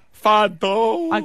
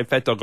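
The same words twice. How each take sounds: First: High "Fat Dog" stretched into a yawn; demonstrated yawn. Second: Said in the usual way. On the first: Shown as a demonstration. Co-host showing the host how it comes out, yawning. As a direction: yawn right through the words "Fat Dog". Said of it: "I yawn. I go". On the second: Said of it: "So I yawned as I said it".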